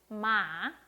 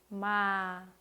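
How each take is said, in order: First: The pitch rises, then drops quickly in a curve. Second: The pitch falls lightly and slowly to the end. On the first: "올렸다가 빨리 내려주시면 됩니다" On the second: "아주 가볍게, 천천히, 그리고 끝까지 내려주시면 됩니다"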